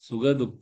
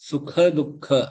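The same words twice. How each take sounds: First: The consonants are voiced, like soft g sounds. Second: The consonants are unvoiced, like hard k sounds. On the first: The speaker calls it wrong. "இல்ல" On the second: The speaker calls it right. "ரெண்டும் க க வரணும்"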